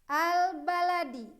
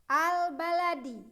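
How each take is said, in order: Both takes have the same delivery.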